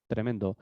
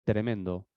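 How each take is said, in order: Both takes have the same delivery.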